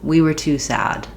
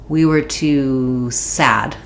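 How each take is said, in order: First: The word sad is stretched and stressed. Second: The word too is stretched and stressed. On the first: The speaker calls it right. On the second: The speaker calls it wrong.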